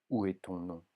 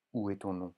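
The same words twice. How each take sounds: The two takes are said the same way.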